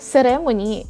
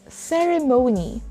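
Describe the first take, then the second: First: The stress is not on the third syllable. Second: The stress is on the third syllable. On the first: The speaker calls it wrong. "It's not ceremony" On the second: The speaker calls it right. "The stress is on the third syllable"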